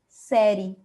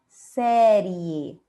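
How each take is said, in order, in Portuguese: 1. O som do E final quase não se ouve. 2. O som do E final é pronunciado claramente.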